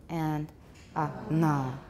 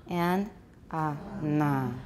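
Both takes have the same delivery.

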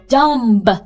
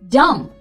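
First: A b sound is heard at the end. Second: No b sound is heard at the end. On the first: The speaker calls it wrong. "经常会有听到有人说dumb，no。" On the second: The speaker calls it right. "It's actually dumb"

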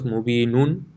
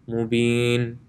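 First: The word ends with an extra un syllable. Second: The word ends on a bare n sound. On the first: The reciter continues on to the next word. "instead of mubinun" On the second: The reciter stops on this word. "since I intend on pausing here, I would say mubin"

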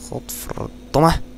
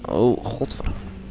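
First: It is said in his own natural voice. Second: It is said in an imitated, put-on voice.

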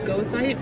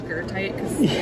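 First: The first syllable sounds like 'go'. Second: The first syllable sounds like 'ger'. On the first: This follows the spelling. "it's spelled gothite" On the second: This is how the speaker actually says it. "but I pronounce it gertite"

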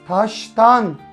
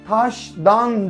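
First: The suffix begins with a voiceless 't' sound. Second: The suffix begins with a voiced 'd' sound. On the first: The speaker calls it right. "ekmeğini taştan çıkarıyor deriz" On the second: The speaker calls it wrong. "Taştan demeyiz"

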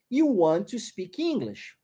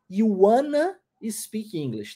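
First: Want and to are said as separate words. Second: Want and to blend into one word, wanna. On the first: It is the more careful, standard way to say it. "a forma mais certinha. Want to" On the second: It is the informal way to say it. "Informalmente eu diria"

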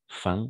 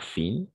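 First: The vowel is nasal, like French un. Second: The vowel is a clear oral ee sound. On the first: The speaker calls it right. "les mots qui finissent en IN, on va prononcer un" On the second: The speaker calls it wrong. "pas fin"

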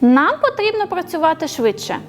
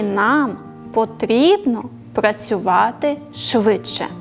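First: The sentence is said smoothly without pauses. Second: Pauses separate each word of the sentence.

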